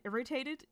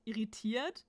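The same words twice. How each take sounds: First: Irritated pronounced in English; irritated in English, pitch lifted before its German counterpart; English word. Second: Irritiert pronounced in German; German word. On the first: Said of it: "for example, in German, irritated". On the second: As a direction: switch into German for irritiert, ir-ri-TIERT. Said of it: "in German". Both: Shown as a demonstration.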